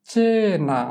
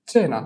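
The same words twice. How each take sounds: First: চেনা drawn out, first syllable held long and high; pronunciation demo. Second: Said in the usual way. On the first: Shown as a demonstration. Teacher dictates so pupils hear the missing syllable, চেনা with long high চে. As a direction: stretch the চে in চেনা, then fall. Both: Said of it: "আমি উচ্চারণ বলে দিব".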